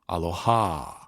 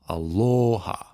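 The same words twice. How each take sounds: First: The stress is not on the syllable lo. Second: The stress is on the middle syllable lo. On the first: The speaker calls it wrong. "as opposed to aloha" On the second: The speaker calls it right. "you emphasize the o"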